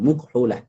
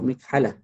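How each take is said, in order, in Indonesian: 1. Vokal pertama adalah bunyi 'u'. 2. Vokal pertama adalah bunyi 'i'. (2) "Sepatutnya dibaca uh, mikhalah... mim tu bagi bawah"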